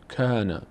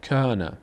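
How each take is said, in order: No difference in how they are said.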